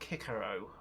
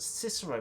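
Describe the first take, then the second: First: The name is said in a Latin-style pronunciation. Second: The name is said in an English-style pronunciation. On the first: "the Latin being" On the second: "my gut is pronounced that"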